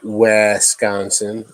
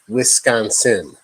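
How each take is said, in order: First: The first syllable sounds like 'wes'. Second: The first syllable sounds like 'wis'. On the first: The speaker calls it wrong. "Not Wisconsin" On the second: The speaker calls it right. "Wi. W I. Wi. Wisconsin. Get it right"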